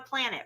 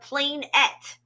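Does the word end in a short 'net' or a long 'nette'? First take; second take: short net; long nette. First: The word ends in a short, unstressed 'net' sound. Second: The word ends in a long, stressed 'nette' sound. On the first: The speaker calls it wrong. "We're just saying it wrong" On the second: The speaker calls it right. "It's a planette"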